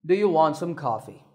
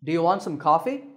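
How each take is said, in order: First: Bored offer dropping on coffee; falling tone. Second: Quick offer lifting on coffee; rising tone. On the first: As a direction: sound uninterested, pitch sinking on coffee. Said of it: "a falling tone". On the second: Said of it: "with my voice going up". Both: Shown as a demonstration.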